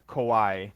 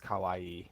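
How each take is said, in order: First: "kawaii" said as ko-WAI; "kawaii" turned into two-beat kowai; the scary word. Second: "kawaii" as ka-wa-ee; "kawaii" with the ending lengthened; the misheard word. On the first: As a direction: round "ka" to "ko" in "kawaii". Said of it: "or I said kawaii". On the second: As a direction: open "ka", long final ee in "kawaii". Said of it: "someone interpreted it as kawaii". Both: Shown as a demonstration.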